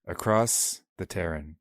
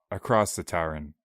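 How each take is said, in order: First: "Terran" with a first vowel as in "air"; mispronounced Taran. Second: "Taran" with an open "tar" first vowel; corrected Taran. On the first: Co-host fumbling the chapter title, "Terran" said with an "air" vowel. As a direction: stumble onto "Terran", rhyming its start with "tear" as in rip. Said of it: "I'm having a rough time today". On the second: Co-host retaking the chapter title, "Taran" said with an open "ah". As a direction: open up the first syllable of "Taran", not "air". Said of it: "give me a break here". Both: Real, not acted.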